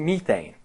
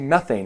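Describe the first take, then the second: First: The first syllable sounds like 'mee'. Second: The first syllable sounds like 'meth'. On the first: "they say methane, which kind of makes sense. It starts with M E" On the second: "They don't say methane in Australia"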